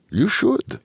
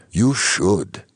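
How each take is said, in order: First: Put-on high, rising "You should" with faint Ukrainian accent. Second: Put-on firm, falling "you should" with faint Ukrainian accent; emphatic, faint Ukrainian accent. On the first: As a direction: lift "should" high at the end, lightly Ukrainian. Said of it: "in her faint Ukrainian accent". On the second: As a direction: stress "you", drop on "should", lightly Ukrainian. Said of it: "emphatic in her faint Ukrainian accent". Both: A narrator's reading.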